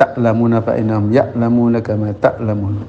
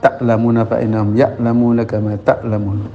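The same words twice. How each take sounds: First: The glottal stops are fully and clearly pronounced. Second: The same.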